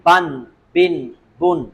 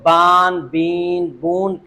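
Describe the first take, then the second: First: The n follows the short vowel at once. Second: The vowel is drawn out before the n. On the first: The speaker calls it right. "फौरन नून पढ़ेंगे" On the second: The speaker calls it wrong. "बाज लोग बान बीन बून पढ़ते हैं, ये गलत है।"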